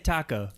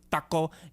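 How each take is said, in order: First: It is said with a plain English pronunciation. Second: It is said with a careful Spanish pronunciation. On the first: The speaker is just naming the food. The speaker calls it right. "just say taco" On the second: The speaker wants to seem authentic. The speaker calls it wrong. "they over enunciate"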